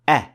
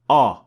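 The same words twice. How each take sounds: First: The sound is light, with an empty mouth. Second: The sound is heavy, with a full mouth. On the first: The speaker calls it right. "Hamza is an empty mouth letter" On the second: The speaker calls it wrong.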